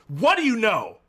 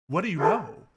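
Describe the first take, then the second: First: It is said forcefully, like an exclamation. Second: It is said as a plain, mild question.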